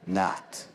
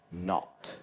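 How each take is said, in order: First: "not" with an open "ah" vowel, American style; slow American "not", unrounded vowel; American accent. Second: "not" with a rounded British O; slow British "not", lips in a circle; British accent. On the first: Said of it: "You would say not". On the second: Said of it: "the sound O". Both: Shown as a demonstration.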